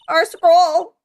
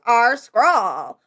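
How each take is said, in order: First: It is said without the LSP character voice. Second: It is said in the LSP character voice.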